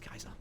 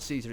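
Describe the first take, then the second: First: The word begins with a K sound. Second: The word begins with an S sound. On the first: The speaker calls it right. "instead of S, it's K" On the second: The speaker calls it wrong. "it's not Caesar"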